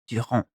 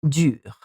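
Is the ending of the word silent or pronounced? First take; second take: pronounced; silent. First: The word ends with a nasal vowel. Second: The word ends without a nasal vowel. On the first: The speaker calls it wrong. "and not durant, which is another word" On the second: The speaker calls it right. "we say dure"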